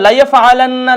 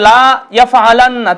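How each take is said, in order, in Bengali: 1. প্রথম সিলেবল la-কে দ্রুত ও হ্রস্ব করে বলা হয়। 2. প্রথম সিলেবল la-কে দীর্ঘ করে টানা হয়। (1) "এই লামটাকে দ্রুত উচ্চারণ করতে হবে" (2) "যদি কেউ পড়ে লা ইয়াফআলান্না তাহলে কিন্তু উচ্চারণ ভুল"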